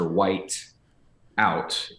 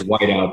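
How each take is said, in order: First: It is said as two separate words. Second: It is said as one single word. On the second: It names the correction fluid.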